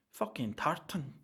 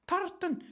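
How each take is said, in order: First: Said in the usual way. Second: High, loud shout; shouted word. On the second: Pretend. Joking about passport colour, shouted high and loud. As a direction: yell it out for the joke.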